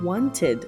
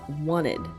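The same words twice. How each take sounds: First: The word is said in its full careful form. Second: The word is said in a reduced casual form. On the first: "The verb wanted" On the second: "becomes wanted, which is a common way to pronounce this word, especially in American English"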